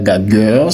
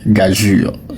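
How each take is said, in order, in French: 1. Ça finit par un son 'gueur' dur. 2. Ça finit par un son 'jur' doux. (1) "ce n'est pas gagueur" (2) "il se prononce gageure"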